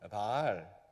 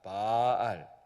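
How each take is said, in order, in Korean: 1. 첫 모음을 짧게 발음해요. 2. 첫 모음을 길게 늘여서 발음해요. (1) "짧게 발음하면" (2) "길게 하는"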